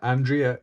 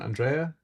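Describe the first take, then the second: First: The name is pronounced in an English way. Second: The name is pronounced in a non-English way.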